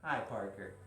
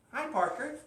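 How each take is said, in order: First: Low, soft final hello; low-pitched greeting. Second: High, lilting hello; high-pitched greeting. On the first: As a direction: drop down low and soft on Parker. Last of three Parker greetings. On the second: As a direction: greet Parker high up in your voice. Greets three Parkers, each differently. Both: Real, not acted.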